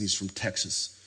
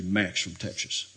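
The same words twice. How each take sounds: First: Said in the usual way. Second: "Max from Texas" with slushy sh sounds for the s; imitated Texan pronunciation. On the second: Imitating a seminary friend, "Max from Texas" slurred with sh sounds. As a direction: say "Max from Texas" like "Maksh from Teksh-us". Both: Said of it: "That's how he said it".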